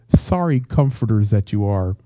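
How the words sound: It is croaked out in a rough voice.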